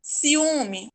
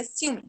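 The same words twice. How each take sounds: First: "Ciúme" as ci-U-me, the U on its own; separated vowels. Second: "ciúme" squeezed into siw-me, two syllables; said together. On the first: Teacher shows the hiatus, "Ciúme" with U separated. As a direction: split I from stressed U in "Ciúme". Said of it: "O U também fica separado". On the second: Teacher shows the wrong form, "ciúme" with vowels run together. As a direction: merge I and U in "ciúme". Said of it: "Se não fosse". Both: Shown as a demonstration.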